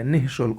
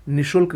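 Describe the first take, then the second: First: निःशुल्क with an h breath after "ni"; correct pronunciation. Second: निशुल्क straight from "ni" into "sh"; no breath after "ni" in निशुल्क; wrong pronunciation. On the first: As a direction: sound the visarga in निःशुल्क. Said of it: "होगा". (निःशुल्क में विसर्ग बोलें) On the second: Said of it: "गलत है". (निशुल्क बिना विसर्ग के) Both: Shown as a demonstration.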